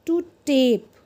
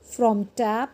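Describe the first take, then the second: First: "tape" with long ay, falling; long vowel. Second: "tap" with short a, rising; short vowel. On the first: Teacher drills silent E word, long vowel in "tape". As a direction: draw out the ay in "tape". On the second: Teacher drills word before silent E, short vowel in "tap". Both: Shown as a demonstration. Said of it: "वो longer और louder हो जाता है".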